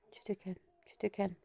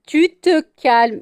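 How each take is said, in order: First: Very soft, low-key command; hushed settling. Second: Loud, high, drawn-out command; firm scolding. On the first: Owner settling excited pet, hushed soft order. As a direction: murmur the pet down to calm. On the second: Owner telling pet to settle, loud slow firm order. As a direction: stretch the order out loudly. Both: Real, not acted.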